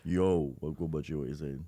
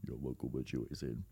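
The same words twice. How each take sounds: First: Low London street voice; london roadman accent. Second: Deep, quiet London roadman voice; london roadman accent. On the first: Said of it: "let's have it again". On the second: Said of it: "a really good Roadman impression". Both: Pretend.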